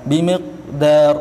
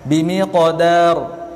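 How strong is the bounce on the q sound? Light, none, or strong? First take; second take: none; light. First: The q sound has no bounce at all. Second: The q sound has a light, gentle bounce. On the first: The speaker calls it wrong. "itu salah. Qalqalah tidak ada" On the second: The speaker calls it right. "Ini sughra ringan, uh, dia tidak kuat"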